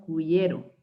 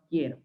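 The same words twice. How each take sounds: First: "cuyero", with the silent u sounded; wrong "quiero". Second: "quiero" with a silent u, like "kiero"; correct "quiero". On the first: Teacher shows students what we don't say, mispronounced cuyero with audible u. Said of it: "no decimos cuyero". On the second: Teacher shows how we really say it, quiero with mute u. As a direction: go from k straight to ie in "quiero". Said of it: "decimos quiero". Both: Shown as a demonstration.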